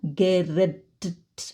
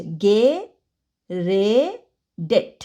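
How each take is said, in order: First: Geredet said as a slow, stuck geredt with the middle e left out; the awkward teeth-breaking version of Geredet; clumsy wrong form. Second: Geredet drawn out slowly with every syllable ge-re-det spoken clearly; correct clear form. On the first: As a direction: drag out Geredet with the ending jammed together. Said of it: "It's disgusting, it sounds really weird". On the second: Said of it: "এবার সাউন্ডটা সুন্দর হচ্ছে". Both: Shown as a demonstration.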